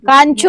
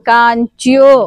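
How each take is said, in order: First: The second syllable is plain 'cho' without a y-glide. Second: The second syllable is 'chyo' with a y-glide. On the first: The speaker calls it wrong. "కాంచో అనకూడదు" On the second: The speaker calls it right. "మళ్ళీ కాంచ్యో"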